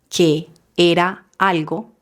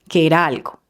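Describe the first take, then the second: First: Each word is separated by a short pause. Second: All the words run together without breaks. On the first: The speaker calls it wrong. "pronuncian cada palabra haciendo una pausa" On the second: The speaker calls it right. "pegamos todas las palabras"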